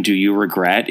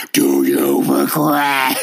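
First: Said in the usual way. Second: High, slow, hammed-up menace on "Do you regret?"; terrible looming angel. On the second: Shown as a demonstration. Host shows how the angel should ask, slow and menacing. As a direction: stretch "Do you regret?" out slow and high like a huge eerie being. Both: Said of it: "a more accurate way to read Mister Quinn's line".

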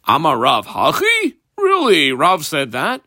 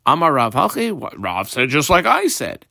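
First: As if you can't believe your ears; surprised question. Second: Amar Rav hachi said as a calm, satisfied agreement, rising at the end of hachi, not as a question; agreeing intonation. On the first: Rabbi Yochanan reacting to Rav's ruling, incredulous. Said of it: "why are you so surprised?". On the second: Rabbi Yochanan noting Rav agrees with him, calm agreement. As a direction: nod along, pleased. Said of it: "I guess the intonation was more". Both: Acted.

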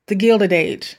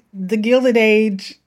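First: Said in the usual way. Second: Slow, drawn-out British accent; mock British accent. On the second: Shown as a demonstration. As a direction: say the title like a British period drama. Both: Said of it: "broke out in Old English".

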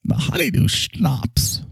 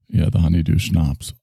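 First: "schnapps" said slowly with a clear sh sound; slow, higher, careful "The honeydew schnapps"; careful pronunciation. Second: Said in the usual way. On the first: Shown as a demonstration. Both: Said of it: "I can't even say, say it right".

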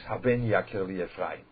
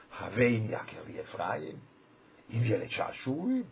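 First: "Haben Yakir Li Ephraim" with a b in Haben; the singer's mistaken "Haben"; wrong reading. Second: "Haben Yakir Li Ephraim" slow, with a v sound, as a question; explained reading. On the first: Retold or imitated. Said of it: "it's wrong". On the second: Shown as a demonstration. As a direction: slowly read "Haben" with a v, asking. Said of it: "The mashmos is".

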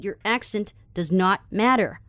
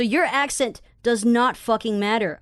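First: Slow, separated "does not matter"; emphatic repeat. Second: Slow, punched "does not fucking matter"; emphatic statement. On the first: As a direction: restate it deliberately, letting "matter" fall. (慢慢重复，逐字强调“not matter”) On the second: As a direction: spell it out firmly, leaning on "fucking matter". (放慢语速，重重强调“not fucking matter”) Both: Shown as a demonstration. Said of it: "I repeat".

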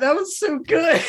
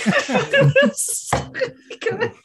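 First: Said in the usual way. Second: High, slow words through laughter; laughing. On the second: Real, not acted. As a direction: stretch it out while cracking up. Player cracking up mid-praise.

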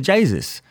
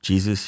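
First: "Jesus" said as "Chay-sus", with a ch sound and an ay vowel; Jamie's pronunciation. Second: "Jesus" said the usual English way, "Jee-zus", with a j sound; standard pronunciation. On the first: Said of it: "She said". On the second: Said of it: "I said". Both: Retold or imitated.

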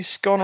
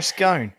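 First: "scone" with a short o, rhyming with gone. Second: "scone" with a long o, rhyming with cone. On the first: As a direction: say "scone" to rhyme with con. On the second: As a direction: say "scone" to rhyme with stone. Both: Shown as a demonstration. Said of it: "now this will be interesting".

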